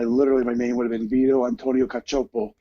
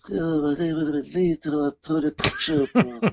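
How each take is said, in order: First: It is said in his normal speaking voice. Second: It is said in a Godfather-style mobster voice.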